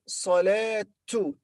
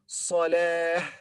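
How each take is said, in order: First: The word ends with a t sound. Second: The word ends with an h sound. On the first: The word is joined to a following word. "if we join it with, for example, al-fajr ... it will be salatu" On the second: The word is said alone, with a pause after it. "when we read this word separately, we say salah, not ta, but ha"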